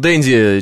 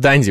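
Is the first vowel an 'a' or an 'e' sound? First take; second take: e; a. First: The first vowel is an 'e' sound. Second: The first vowel is an 'a' sound. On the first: The name is read like the word for a London dandy. The speaker calls it wrong. "А не как Дэнди лондонский" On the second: The name is read like Crocodile Dundee. The speaker calls it right. "как крокодил Данди"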